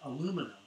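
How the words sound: It is said the American way, four syllables.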